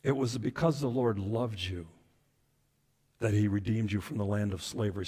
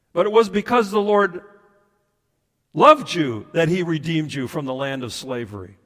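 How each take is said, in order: First: Soft, low, intimate verse; tender scripture reading. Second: Strong, projected verse reading; emphatic scripture reading. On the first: Preacher repeats God's words of love, hushed and tender. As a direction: let the verse sink in gently. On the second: Preacher quotes Deuteronomy to the congregation, emphatic. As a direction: punch it out to the congregation. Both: Acted.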